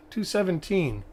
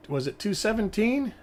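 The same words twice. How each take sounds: First: "Two seventeen" settled with a falling tune; confirming fall. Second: "two seventeen" asked with a rising question tune. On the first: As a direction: state "Two seventeen" firmly, stressing "two". Confirming the number to himself. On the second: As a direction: ask "was it two seventeen?" unsure, pitch going up. Checking a coin number aloud. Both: Real, not acted.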